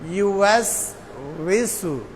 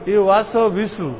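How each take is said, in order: First: The voice stops cleanly on 'was'. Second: An extra vowel is added after 'was'. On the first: The speaker calls it right. "এখানে থামার মতো করেন।" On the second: The speaker calls it wrong. "ওয়াসো এক ভুল আর বিসু এর আর এক ভুল।"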